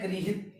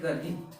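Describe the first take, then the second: First: गृहित said as "gri-hit"; गृहित with ri, not ar. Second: गर्हित said as "gar-hit"; गर्हित with ar, not ri. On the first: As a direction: keep the ri sound in गृहित. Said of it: "इसमें री है". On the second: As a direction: put a plain r before h in गर्हित. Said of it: "इसमें र है". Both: Shown as a demonstration.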